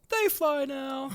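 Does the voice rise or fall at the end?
fall. It is said as a statement, falling.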